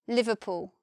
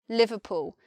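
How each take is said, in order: First: Southern accent, with a shortened final oo vowel. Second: The same.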